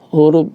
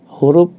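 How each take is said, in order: Both takes have the same delivery.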